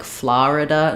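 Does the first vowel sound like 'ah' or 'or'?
ah. The first vowel is closer to 'ah'. This is a regional New York way of saying it. "they would also say like Florida"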